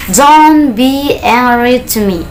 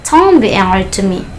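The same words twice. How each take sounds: First: Slow, higher, drawn-out words; slow model sentence. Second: Said in the usual way. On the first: Shown as a demonstration. Teacher models a prohibition for learners, slowly. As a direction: stretch each word out for learners.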